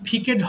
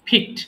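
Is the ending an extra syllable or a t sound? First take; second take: extra syllable; t sound. First: The ending is an extra syllable. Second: The ending is a single t sound. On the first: The speaker calls it wrong. "এটা কিন্তু ফিকেড হবে না" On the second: The speaker calls it right. "ফিক্ট হবে"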